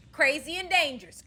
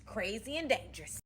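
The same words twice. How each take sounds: First: High, loud "Crazy and dangerous"; loud first take of "Crazy and dangerous"; loud panic. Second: Said in the usual way. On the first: Retold or imitated. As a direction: shout "dangerous" in alarm. Panicked repeat.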